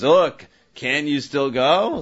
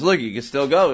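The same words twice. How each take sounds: First: "Look, can you still go?" slow, leaning on "Look"; rhetorical question. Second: Said in the usual way. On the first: Shown as a demonstration. Teacher contrasting the second reading, slow rhetorical question. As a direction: drag it out like a challenge with an obvious answer. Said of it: "And the second says". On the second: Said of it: "Like in the first way, he says".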